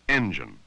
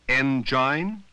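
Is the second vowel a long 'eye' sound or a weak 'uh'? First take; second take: weak uh; long eye. First: The second vowel is a weak 'uh' sound. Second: The second vowel is a long 'eye' sound. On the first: The speaker calls it right. "If the second vowel is unstressed, it has the uh sound" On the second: The speaker calls it wrong. "It should have the long sound of I"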